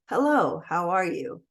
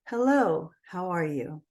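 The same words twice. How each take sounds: First: The voice is scratchy and creaky, out of breath. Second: The voice is smooth and clear, with full breath. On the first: The speaker calls it wrong. "my voice was a little scratchy on that" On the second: The speaker calls it right. "No raspiness, no vocal fry"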